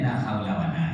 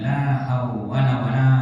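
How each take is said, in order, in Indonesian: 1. Kata kedua memiliki dua suku kata, haula. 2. Kata kedua memiliki tiga suku kata, hawwala. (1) "Dia la haula wala kan" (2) "Dibaca la hawwala wala"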